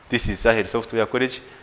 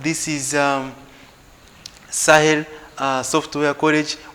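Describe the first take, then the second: First: It is said in an unhappy, joyless way. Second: It is said in a happy, cheerful way.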